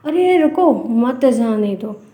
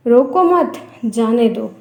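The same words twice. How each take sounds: First: "अरे रुको" slowly, pause, then "मत जाने दो"; "रुको" set apart, "मत जाने दो" as one falling phrase; pause after रुको. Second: "रोको मत" in one go, pause, then "जाने दो"; pause after मत. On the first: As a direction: stop after "रुको" and run "मत जाने दो" together. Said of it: "तो ये विराम चिन्ह है". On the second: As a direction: join "मत" to "रोको" and break before "जाने दो". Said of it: "जो सेम चीज़ को दो अलग-अलग". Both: Shown as a demonstration.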